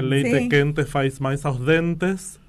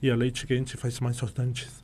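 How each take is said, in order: First: It is spoken in a southern Brazilian accent. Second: It is spoken in a Rio de Janeiro accent. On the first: "que es cuando eres del sur" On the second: "cuando es del"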